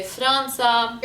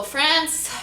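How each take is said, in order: First: Franza with a rolled R; Lebanese name. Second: Slow, higher American France; American accent. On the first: Showing the Lebanese name, slow rolled Franza. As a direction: say Franza slowly as "frahn-sa". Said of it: "we say Franza". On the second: Announcing it to viewers, American accent. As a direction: draw out France in American English. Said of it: "say states and countries". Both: Shown as a demonstration.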